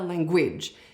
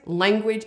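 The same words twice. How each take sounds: First: The stress is on the second syllable. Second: The stress is on the first syllable. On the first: The speaker calls it wrong. "it's never language" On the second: The speaker calls it right. "It is always language"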